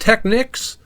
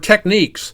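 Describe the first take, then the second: First: The second syllable sounds like 'nicks'. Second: The second syllable sounds like 'neeks'. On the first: "Is it pronounced Technics" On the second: "or Techniques?"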